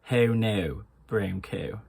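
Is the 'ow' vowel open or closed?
closed. The vowel is a closed ew-like sound. "in Irish, it becomes ew"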